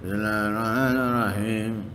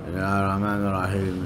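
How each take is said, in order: First: It is said with a strained, pushing voice. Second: It is said in a low, mumbling voice.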